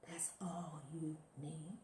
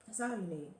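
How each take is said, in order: First: Slow, hushed whisper, much softer; breathy slow whisper of the same line. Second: Said in the usual way. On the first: Shown as a demonstration. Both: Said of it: "repeated line, then whispered".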